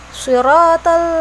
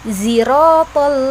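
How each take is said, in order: First: The word begins with an emphatic s sound. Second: The word begins with a z sound. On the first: "menggunakan huruf shad" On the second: "dengan huruf za"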